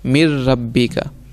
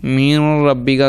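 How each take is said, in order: First: The merged sound has no nasal resonance. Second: The merged sound is nasalized through the nose. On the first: The speaker calls it right. "अब इसमें आपने नाक में आवाज़ नहीं जाने देनी" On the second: The speaker calls it wrong. "अगर कोई पढ़ेगा वो गलत है"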